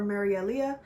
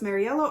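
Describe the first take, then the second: First: "Marielia" ending in "-EL-ee-uh"; alternative pronunciation. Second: "Mariella" ending without an "ee-uh", just "-ella"; alternative pronunciation. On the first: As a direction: say "Marielia" with an extra "ee" before the final vowel. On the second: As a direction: say "Mariella" with a short two-part ending after "Mari". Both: Shown as a demonstration. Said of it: "can't remember if it's pronounced".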